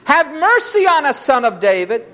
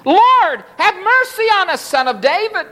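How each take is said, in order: First: High-pitched plea, falling toward the end; crying out. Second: Crying out harder. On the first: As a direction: call from the roadside for mercy. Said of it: "cried out". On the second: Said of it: "they cried out the more". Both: A narrator's reading.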